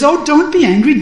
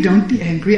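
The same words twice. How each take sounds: First: Loud, much higher plea to calm him; urgent high plea, don't be angry; pleading. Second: Said in the usual way. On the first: Acted.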